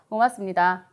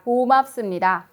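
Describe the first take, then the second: First: The vowels are short, weak and loosely shaped. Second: The vowels are long, strong and clearly shaped. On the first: The speaker calls it wrong. "모음을 짧게 혹은 힘을 안 주고 입 모양을 정확히 하지 않은 상태에서" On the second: The speaker calls it right. "다시 모음을 얹어봤더니"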